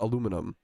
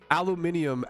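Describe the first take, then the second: First: It is said with four syllables, ending in -um. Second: It is said with five syllables, ending in -ium. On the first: The speaker calls it wrong. "Why do we call it aluminum?" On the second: The speaker calls it right. "your guys' pronunciation of aluminium"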